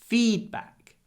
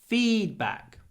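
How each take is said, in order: No difference in how they are said.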